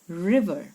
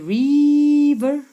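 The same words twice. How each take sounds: First: The first vowel is a short 'i' sound. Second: The first vowel is a long vowel sound. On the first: The speaker calls it right. "It has a short I sound" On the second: The speaker calls it wrong. "don't say river"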